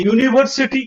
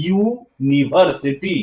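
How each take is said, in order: First: Said in the usual way. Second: ইউনিভার্সিটি very slow, syllable by syllable; drawn-out ইউনিভার্সিটি, rising at the end; 'yu' sound demo. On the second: Shown as a demonstration. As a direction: break it into ইউ-নি-ভার-সিটি, lower. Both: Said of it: "ইউ উচ্চারণটা এখানে আসলো".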